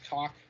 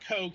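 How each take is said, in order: First: The name is said with a German pronunciation. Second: The name is said like English 'coke'. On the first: The speaker calls it right. "I believe the German pronunciation is Koch Media" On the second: The speaker calls it wrong. "not Coke. It has nothing to do with the Koch brothers"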